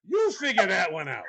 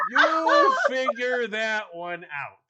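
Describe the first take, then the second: First: Said in the usual way. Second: "You figure that one out" drawn out slowly with weight on "You"; husband challenging the listener, slow and emphatic; slow emphatic repeat. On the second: Shown as a demonstration. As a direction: repeat it slower and heavier, leaning on "You".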